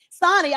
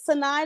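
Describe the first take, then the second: First: The name is said like Sonny. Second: The name is said like Sinai. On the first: The speaker calls it right. "It's Sonny" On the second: The speaker calls it wrong. "Did I say that right?"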